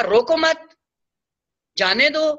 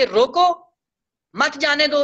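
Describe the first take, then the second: First: Raised "روکو مت" together, clear stop, then "جانے دو"; pause after مت. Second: Raised "روکو", clear stop, then "مت جانے دو" together; pause after روکو. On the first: Teacher shows the opposite meaning, pausing after "مت" before "جانے دو". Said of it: "اور اگر کہا". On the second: Teacher shows how meaning changes, pausing after "روکو" before "مت جانے دو". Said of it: "اس طرح روکا". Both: Shown as a demonstration.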